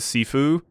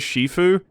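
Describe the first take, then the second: First: The word begins with a plain s sound. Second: The word begins with an sh sound. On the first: Commenters suggested this pronunciation. "it might be pronounced like uh, sci- uh, Sifu" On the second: The game uses this pronunciation. "the pronunciation that the game gives, and it says Shifu"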